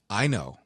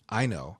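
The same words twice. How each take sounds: The two takes are said the same way.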